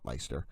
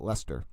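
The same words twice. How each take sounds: First: Leicester said as "LICE-ter"; pronounced "Leister". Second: Leicester said as "LESS-ter"; pronounced "Lester". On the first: Streamer showing their own way, Leicester as "LICE-ter". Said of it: "I call it". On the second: Streamer showing how locals call it, Leicester as "Lester". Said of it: "I think they call it". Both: Shown as a demonstration.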